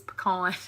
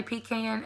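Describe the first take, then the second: First: "pecan" said "puh-KAHN"; weak first syllable, ah in pecan. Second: "pecan" said "PEE-can", short a; long ee up front in pecan. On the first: Shown as a demonstration. Vlogger correcting the other way, puh-KAHN. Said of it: "it is pecan". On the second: Retold or imitated. Imitating how some people say it, PEE-can. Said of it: "I know some people say pecan".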